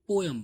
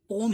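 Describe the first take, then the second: First: The word is said as two syllables. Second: The word is said as one syllable. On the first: "हम India में इसको पोयम बोलते हैं" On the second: "exact pronunciation इसका पोम ही होता है"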